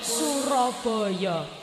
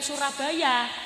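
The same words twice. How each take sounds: First: It is said the local way, with o vowels. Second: It is said in the standard form.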